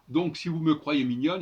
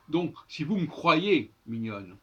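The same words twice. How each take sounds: First: "me croyez" with a full schwa in me; e of "me" sounded. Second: "vous me croyez" run as voum-croyez; elided e in "me". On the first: Teacher quotes the verse before correcting it, "me croyez" fully sounded. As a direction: keep "me" its own syllable before "croyez". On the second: Teacher gives the corrected verse, "vous me" said as voum. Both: Shown as a demonstration. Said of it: "il faudrait dire".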